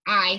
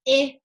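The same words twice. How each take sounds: First: The vowel is a long sound, as in kite. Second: The vowel is a short sound, as in kit. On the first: The speaker calls it wrong. "and not an I sound" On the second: The speaker calls it right. "the I is pronounced as a short vowel sound. So I would pronounce it as an I sound"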